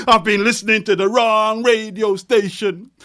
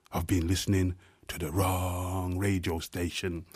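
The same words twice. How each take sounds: First: Louder and higher, rising at the end; ringing refrain. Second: Much softer and lower, drawn inward; hushed refrain. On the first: Poet hurling the refrain at the crowd, loud. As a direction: throw the refrain out to the room. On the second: Poet sinking the refrain to a hush, softly. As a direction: let the refrain sink almost to a murmur. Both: Acted.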